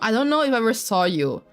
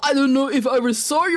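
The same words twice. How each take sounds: First: It is said in a natural everyday voice. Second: It is said in a put-on character voice.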